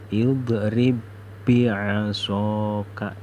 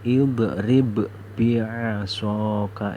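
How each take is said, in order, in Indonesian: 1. Huruf b pertama menyatu menjadi satu bunyi b ganda. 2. Huruf b pertama diucapkan terpisah sebelum b kedua. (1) "Ini ba yang pertama ini hilang. Seolah-olah kita membaca tasjid" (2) "tidak boleh dibaca idrib bi'asaka, itu tidak boleh"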